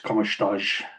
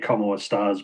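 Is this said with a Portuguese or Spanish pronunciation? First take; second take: Portuguese; Spanish. First: It is said with a Portuguese pronunciation. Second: It is said with a Spanish pronunciation. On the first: "in Portuguese it's como estás" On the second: "they say como estás"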